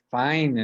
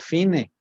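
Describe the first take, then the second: First: It is pronounced the English way. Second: It is read with Spanish sounds, as spelled. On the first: "Eso de decir fine" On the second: "en castellano sería fine"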